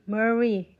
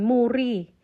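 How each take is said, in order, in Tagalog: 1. Binibigkas ito sa lokal na paraan, gaya ng 'Murray'. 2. Binabasa ito sa paraang Pilipino, gaya ng 'moo-ree'. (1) "sila dito, iba nilang bigkasin, kundi parang Murray" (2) "Kung tayo mga Pilipino pala, kung babasahin natin"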